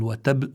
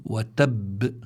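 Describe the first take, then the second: First: وتب ending on a single light b; وتب cut short, losing one of its two b's; dropped double ba. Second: وتب with a held, doubled b released in a small bounce; وتب ending on a firm double b with an echo; doubled final ba. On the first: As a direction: say وتب with the final ba unstressed and undoubled. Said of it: "وإلا بيؤدي هذا إلى حذف". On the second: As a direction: press on the last b of وتب, then release it. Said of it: "إحدى الباءين. فبدي أقول". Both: Shown as a demonstration.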